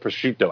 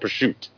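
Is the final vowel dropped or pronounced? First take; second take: pronounced; dropped. First: The final vowel is pronounced at the end. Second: The final vowel is dropped at the end. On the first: "I don't call it prosciutto" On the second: "I call it prosciutto. I don't say the O"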